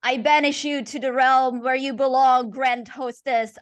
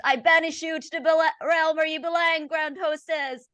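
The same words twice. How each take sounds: First: Raised, forceful exorcism command; priest's banishing cry. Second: Higher, louder, fervent banishing; rising exorcism cry. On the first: Priest banishing the Grand Hostess, forceful cry. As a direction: cast the demon out with full conviction. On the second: Priest repeating the banishment, higher and fervent. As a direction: push harder, climaxing the rite. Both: Acted. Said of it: "and then says".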